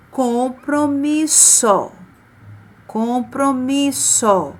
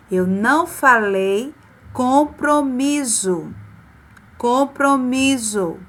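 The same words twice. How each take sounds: First: Compromisso said slowly with a hissing ss; correct s sound. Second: Compromisso said as "compromizo" with a buzzing z; wrong z sound. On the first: Teacher modelling the right sound, slow sharp s. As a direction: stretch compromisso, sharp s at the end. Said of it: "Olha o som". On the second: Teacher showing what she did not say, buzzing z. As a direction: buzz the ss in compromisso like a z. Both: Shown as a demonstration.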